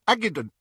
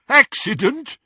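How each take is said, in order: First: Put-on high, thick-mouthed boy's answer; meek excuse. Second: High, loud, incredulous question; jeering echo. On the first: Beaten boy excuses himself to captors, meek and high. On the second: Henchman echoes the boy's excuse, jeering loudly. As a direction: throw it back as a loud mocking question. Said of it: "There was more jeering laughter". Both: A narrator's reading.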